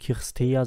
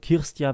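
First: The ending is said as two separate vowels. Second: The ending is said as one 'ya' sound. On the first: The speaker calls it wrong. "Nicht Kirstea" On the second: The speaker calls it right. "EA wird wie ein Ja ausgesprochen"

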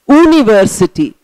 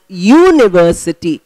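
First: The word begins with a plain vowel sound. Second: The word begins with a 'y' consonant sound. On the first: The speaker calls it wrong. "We are not pronouncing as university" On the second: The speaker calls it right. "we are pronouncing it as university"

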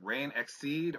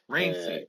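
First: The name has an 'ex' sound before 'seed'. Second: The name has no 'ex' sound before 'seed'. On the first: The speaker calls it wrong. "Am I pronouncing the name right?" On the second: The speaker calls it right. "No, it's actually Rain Seed"

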